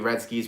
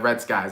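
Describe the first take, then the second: First: The second word sounds like 'skis'. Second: The second word sounds like 'skies'. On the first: The speaker calls it wrong. "I call you Red Skis" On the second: The speaker calls it right. "I'm pretty sure you pronounce it uh"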